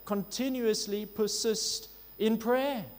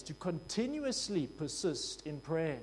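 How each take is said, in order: First: Louder, higher and slow, each word leaned on; emphatic repeat. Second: Said in the usual way. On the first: Shown as a demonstration. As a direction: hammer home Continuously persist in prayer. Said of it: "The emphasis is clear". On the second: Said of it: "in the emphatic sense".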